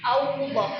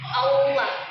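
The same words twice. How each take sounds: First: An extra w sound is heard in the word. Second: No extra w sound is heard in the word. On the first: The speaker calls it wrong. "mengucapnya dengan ada suara wawnya" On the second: The speaker calls it right.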